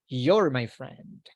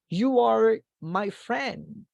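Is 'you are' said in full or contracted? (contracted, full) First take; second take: contracted; full. First: The words 'you are' are contracted to one syllable. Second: The words 'you are' are said in full.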